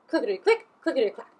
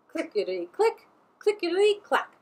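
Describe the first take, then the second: First: The train sound is said at a faster pace. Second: The train sound is said at a slower pace.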